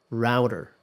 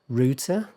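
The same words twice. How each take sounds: First: The word is said the American way. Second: The word is said the British way.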